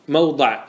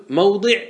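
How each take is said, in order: First: موضع said "mawda", with an a; fatha form. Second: موضع said "mawdi", with an i; kasra form. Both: Shown as a demonstration. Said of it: "ما ورد بالوجهين".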